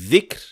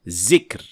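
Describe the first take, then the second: First: It begins with a soft 'th' as in 'this'. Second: It begins with a buzzing 'z' sound. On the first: The speaker calls it right. "instead of saying dhikr" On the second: The speaker calls it wrong. "pronouncing it as zay"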